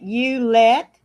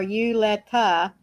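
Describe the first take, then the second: First: The name is said with two syllables. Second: The name is said with three syllables. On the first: "two syllables" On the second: "three syllables"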